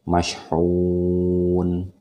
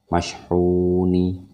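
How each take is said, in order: First: The word ends on a consonant, without a vowel. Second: The word ends with an added final vowel. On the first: The speaker calls it right. "tapi ini semua disukunkan" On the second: The speaker calls it wrong. "bukan mashhuni, tidak lagi seperti itu"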